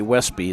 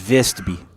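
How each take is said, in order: First: The name begins with a W sound. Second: The name begins with a V sound. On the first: The speaker calls it wrong. "you don't say Westby" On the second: The speaker calls it right. "if you're a true Norwegian, it's Vestby"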